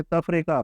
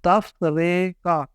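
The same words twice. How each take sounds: First: تفریقہ run together in one go; fluent pace. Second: Very slow, syllable by syllable تفریقہ; slow practice pace. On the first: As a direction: say taf-re-qa smoothly for تفریقہ. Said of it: "اس کو جب روانی سے". (تفریقہ روانی سے) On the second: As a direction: stretch تفریقہ out as taf-re-qa. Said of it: "آہستہ آہستہ ٹھیک کرنے". (تفریقہ آہستہ آہستہ، توڑ کر) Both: Shown as a demonstration.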